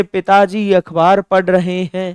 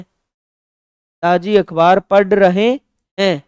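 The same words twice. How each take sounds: First: Said in the usual way. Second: "पढ़ रहे हैं" drawn out slowly with हैं lengthened; slow, stressed ending. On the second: Shown as a demonstration. Teacher slowing down to stress the plural verb. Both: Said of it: "बहुवचन के लिए "हैं".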